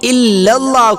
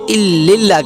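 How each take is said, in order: First: The vowel after 'ill' is an 'a'. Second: The vowel after 'ill' is an 'i'. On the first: The speaker calls it right. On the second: The speaker calls it wrong.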